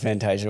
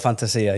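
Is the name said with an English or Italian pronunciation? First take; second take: English; Italian. First: The name is said with an English pronunciation. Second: The name is said with an Italian pronunciation. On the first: "we'll go with Fantasia" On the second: "in Italy, if we're in Italy, it would be"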